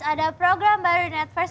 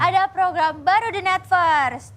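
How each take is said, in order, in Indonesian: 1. Dibaca cepat dan datar, tanpa intonasi. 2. Dibaca dengan intonasi yang hidup dan bervariasi. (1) "bacanya jangan langsung reret gitu, jangan. Lu kayak printer ini" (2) "Ada ada ada dinamika, intonasi"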